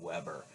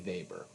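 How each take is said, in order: First: The name begins with a W sound. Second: The name begins with a V sound. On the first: The speaker calls it wrong. "you will absolutely look like you don't fit the part if you call him Weber" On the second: The speaker calls it right. "It's got to be Weber"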